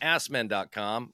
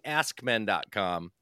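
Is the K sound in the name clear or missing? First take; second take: missing; clear. First: The K sound is dropped entirely. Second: The K sound is clearly pronounced. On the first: The speaker calls it wrong. "I'm not hearing a real pronunciation of a K in there" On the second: The speaker calls it right. "I'm not hearing askmen.com"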